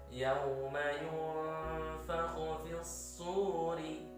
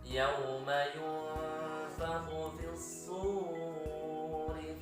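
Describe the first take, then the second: First: The long vowel in suri is held briefly. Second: The long vowel in suri is drawn out. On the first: The speaker calls it right. "itulah yang namanya satu ayunan" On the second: The speaker calls it wrong. "Tidak boleh, itu kepanjangan"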